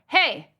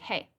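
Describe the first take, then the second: First: It is said louder, like scolding a pet. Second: It is said quietly, like casual chat.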